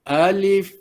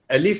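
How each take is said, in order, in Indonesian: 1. Vokal pada alif dibaca panjang. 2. Vokal pada alif dibaca pendek dan cepat. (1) "Jangan baca alif" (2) "Alif tu disebut dengan pantas, ya, segera"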